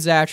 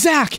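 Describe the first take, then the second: First: The name ends with a ch sound. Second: The name ends with a k sound. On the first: The speaker calls it wrong. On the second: The speaker calls it right.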